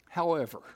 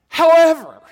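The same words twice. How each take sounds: First: It is said at normal volume. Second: It is said noticeably louder.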